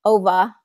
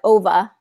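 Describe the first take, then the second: No difference in how they are said.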